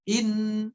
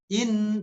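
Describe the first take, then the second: The two takes are said the same way.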